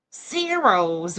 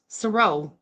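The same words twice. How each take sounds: First: "Saros" as SAIR-ohz; "Saros" mockingly said SAIR-ohz, final z; mocked mispronunciation. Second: "Saro" as suh-ROH; "Saro" corrected to suh-ROH, no final z; correct surname pronunciation. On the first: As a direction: mimic "Saros" with a full "air" vowel up front. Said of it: "Why are you pronouncing it like Cornwall?". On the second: Shown as a demonstration. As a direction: say "Saro" with a short, reduced first syllable. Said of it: "Your last name is Saro".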